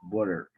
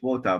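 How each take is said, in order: First: It is said with an American pronunciation. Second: It is said with an Australian pronunciation. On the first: "but they p- pronounce it water" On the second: "you pronounce it water"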